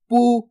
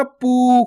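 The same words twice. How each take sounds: First: पू with a short, quick ऊ, not held; short u sound. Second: पू with the ऊ pulled long, the wrong way; stretched vowel. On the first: Teacher showing pupils the correct short पू. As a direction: say पू briefly, the vowel cut short. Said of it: "इतना ही उच्चारण करना आपको". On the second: Teacher demonstrating the mistake of stretching पू. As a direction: drag out पू like a long ऊ. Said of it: "खींच खींच के नहीं पढ़ना". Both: Shown as a demonstration.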